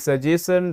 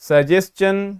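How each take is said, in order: First: The middle sound is said like 'sh'. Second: The middle sound is said like 'ch'. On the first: The speaker calls it wrong. "ना कि" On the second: The speaker calls it right. "ये बन जाता है चा"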